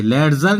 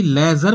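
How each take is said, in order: First: लेडजर with the d sounded mid-word; wrong pronunciation. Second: लेजर with no d in the middle; silent d. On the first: English teacher warning learners off लेडजर, d wrongly sounded. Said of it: "लेडजर नहीं". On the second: English teacher showing how ledger is said, लेजर with silent d. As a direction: say लेजर, leaving the d out before the z. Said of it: "लेजर बोलेंगे". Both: Shown as a demonstration.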